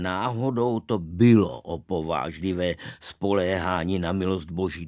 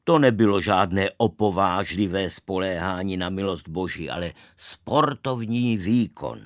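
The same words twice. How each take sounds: First: Narrated rebuttal leaning on „bylo“; contradicting retort. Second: Mildly proud retort, narrated; understated boastful denial. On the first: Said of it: "Mně se nelíbilo, že je hrdý". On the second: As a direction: state it with a touch of pride. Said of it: "Čeněk Jirsák pravil hrdě". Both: A narrator's reading.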